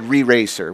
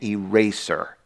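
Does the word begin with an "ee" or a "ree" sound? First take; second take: ree; ee. First: The word begins with a "ree" sound. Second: The word begins with an "ee" sound. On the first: The speaker calls it wrong. "if you couldn't say it right like me, you said re-racer" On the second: The speaker calls it right. "This is something called an eraser"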